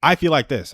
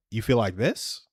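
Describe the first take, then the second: First: Said in the usual way. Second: Soft echo, rising on "this?"; questioning tone. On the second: Retold or imitated. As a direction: mirror it back as a question, lifting "this". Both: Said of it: "I would do it in a questioning tone".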